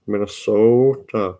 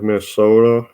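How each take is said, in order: First: "Minnesota" slowed, with a long drawn-out O; "Minnesota" on a long North Central O. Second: Said in the usual way. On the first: Shown as a demonstration. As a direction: stretch the O in "Minnesota". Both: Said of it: "long O".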